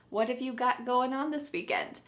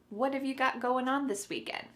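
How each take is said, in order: Both takes have the same delivery.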